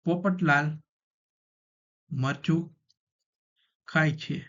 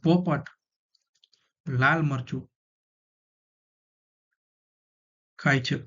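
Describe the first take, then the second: First: 'Popat' and 'lal' run together as one name. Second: 'Lal' runs together with 'marchu' after 'Popat'. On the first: Someone named Popatlal eats chili. "હવે આપણે ભેગું કરી દઈએ" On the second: The parrot eats red chili. "હવે છૂટું કરી નાખી હાવ અને આ લાલ મરચું ભેગું કરી નાખી"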